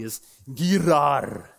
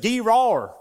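First: It's Gerar said slow and careful, hard G, ger-AR; proper pronunciation. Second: Gerar with a loud high southern twang, GEE-rar; Gerar, southern accent demo. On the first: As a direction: spell out Gerar slowly the proper way. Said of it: "So I'm not saying it properly". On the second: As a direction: say Gerar in a thick southern drawl, kee-RAR. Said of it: "So my southern accent". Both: Shown as a demonstration.

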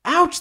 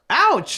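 First: Much higher, squeakier yelp; shouted ouch. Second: High yelp of pain; shouted ouch. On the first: Heroes squealing again under the rock hail. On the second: Both heroes yelping when pelted by rocks. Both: Acted. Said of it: "they shouted in unison".

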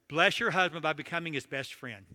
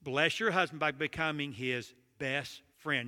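First: Said in the usual way. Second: Said again slowly for weight; slow emphatic repeat. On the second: Shown as a demonstration. Preacher repeating his point to the congregation, slow and emphatic. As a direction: lean on it slowly so it sinks in.

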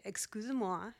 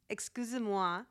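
First: "Excusez-moi" repeated by a learner, rising at the end; learner's repeat. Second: "Excusez-moi" as the language app demonstrates it, crisp French sounds; app's model French. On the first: Learner repeats the app's phrase back, tentative rising. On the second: Language app models the phrase for the learner, crisp French. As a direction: voice the Pimsleur prompt "Excusez-moi" in neat French. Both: Shown as a demonstration. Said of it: "And then you repeat it".

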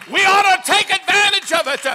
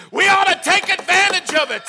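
Both takes have the same delivery.

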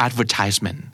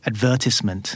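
First: "advertisement" with a long "tise" as in "ties"; American-style "advertisement", weight on -tise-; US stress. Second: "advertisement" stressed on the second syllable; British "advertisement", short "tis" after a stressed VER. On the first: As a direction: say "advertisement" as ad-ver-TISE-ment. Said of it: "ในขณะที่ U S จะเป็น". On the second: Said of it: "British probably hear". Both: Shown as a demonstration.

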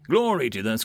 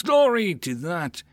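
First: Said in the usual way. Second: Mock pompous lady. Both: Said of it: "All she talks about is".

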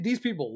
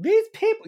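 First: Said in the usual way. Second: THESE PEOPLE jumped up high and loud; emphatic repeat. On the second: Real, not acted. Ranting about political opponents, THESE PEOPLE punched high and loud. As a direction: hit "these people" hard, pitched way up.

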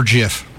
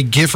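First: "jif" with a soft G like a J. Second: "gif" with a hard G as in graphic. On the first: Co-host asking about pronunciation, soft-G jif. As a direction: say "jif" starting with a J sound. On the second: Co-host asking about pronunciation, hard-G gif. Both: Shown as a demonstration. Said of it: "Do you say gif or jif".

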